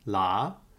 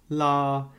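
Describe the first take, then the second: First: The pitch starts mid and rises. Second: The pitch stays high and level. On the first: "a mid rising tone" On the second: "a high flat tone"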